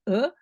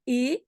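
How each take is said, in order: First: The vowel is a reduced, mute schwa. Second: The vowel is a full, clear e. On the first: The speaker calls it right. "donc c'est" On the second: The speaker calls it wrong. "c'est pas"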